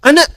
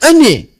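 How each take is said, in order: First: The final vowel is an open 'a'. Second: The final vowel is an 'e'. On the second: "pakai E"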